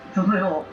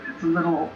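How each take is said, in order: Both takes have the same delivery.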